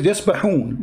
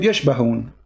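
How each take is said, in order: First: يسبحون with a plain s and breathy ḥ; correct pronunciation. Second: يشبهون with sh in place of s; imitated mispronunciation. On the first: Shown as a demonstration. Host reading the written word to caller, يسبحون with a clear s. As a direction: say يسبحون as yas-ba-ḥūn, s not sh. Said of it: "It says يسبحون in front of me". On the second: Host quoting caller's slip back, يشبهون with a sh. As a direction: say يشبهون as yash-ba-hūn, mimicking the slip. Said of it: "You said يشبهون".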